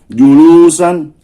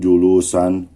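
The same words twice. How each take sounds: First: It is said forcefully, as a command. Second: It is said plainly, as part of a statement. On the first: It orders someone to sit. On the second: It names the act of sitting.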